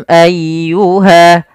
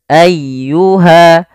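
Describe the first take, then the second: No difference in how they are said.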